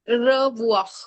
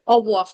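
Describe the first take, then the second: First: The r sound is clearly pronounced. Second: The r sound is dropped entirely. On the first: "ये तो मैंने सिर्फ रीड करने के लिए बताया था" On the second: "वो र की साउंड ही नहीं आने देते"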